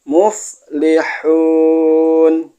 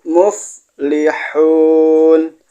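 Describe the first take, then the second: No difference in how they are said.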